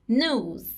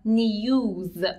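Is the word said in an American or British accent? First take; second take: American; British. First: It is said in an American accent. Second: It is said in a British accent. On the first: "But in American English news" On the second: "In British English we say news"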